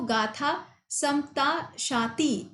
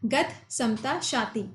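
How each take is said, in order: First: The written vowel in the first word is pronounced. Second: The written vowel in the first word is dropped. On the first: The speaker calls it wrong. "ऐसे मत बोल देना" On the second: The speaker calls it right. "ये word यहाँ पे use किया जाता है"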